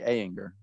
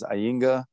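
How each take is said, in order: First: The name is said with an American pronunciation. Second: The name is said with a German pronunciation. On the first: "in the States, we say Ayinger" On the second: "old Google Translate was Ayinger"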